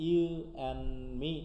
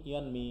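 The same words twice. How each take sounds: First: "You and me" in separate pieces with pauses; separated words. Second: "you and me" linked quickly as "you 'n' me"; reduced "and". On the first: Teacher takes the phrase apart, separated "You and me". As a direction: break up You and me word by word. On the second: Teacher shows students elision, reduced "and". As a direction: swallow the D of and, run it together. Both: Shown as a demonstration. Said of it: "And কিন্তু আমরা ফুল উচ্চারণ করছি না".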